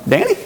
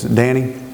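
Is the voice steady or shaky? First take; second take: shaky; steady. First: The name is said in a shaky voice. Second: The name is said in a steady voice.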